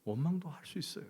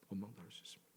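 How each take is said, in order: First: Said in the usual way. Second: Much softer, almost whispered repeat; soft echo. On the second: Shown as a demonstration. Preacher repeating his point to the congregation in a hush. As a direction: let it fall away to a hush.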